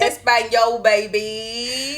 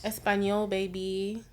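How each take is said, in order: First: Loud, drawn-out mimicry; hammed-up mock Spanish; mocking echo. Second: Playful attempt at a Spanish accent; lightly put-on Spanish flair; mock Spanish. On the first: Teasing friend's attempt at Spanish, loud mimicry. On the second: Joking when asked to speak Spanish, mock Spanish accent. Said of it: "That was not Spanish".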